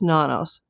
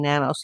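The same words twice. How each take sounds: First: The name is pronounced with Spanish sounds. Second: The name is pronounced with English sounds. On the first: "if we want to say it p- correctly, the Spanish way" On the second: "I've been saying nanos like the media"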